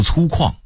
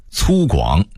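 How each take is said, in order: First: 粗犷 as cūkuàng; Beijing-style 粗犷 ending in falling kuàng; Beijing dialect reading. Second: Said in the usual way. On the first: Shown as a demonstration. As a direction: say 犷 in 粗犷 as kuàng, not guǎng. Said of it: "北京话读". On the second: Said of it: "北京话读粗犷".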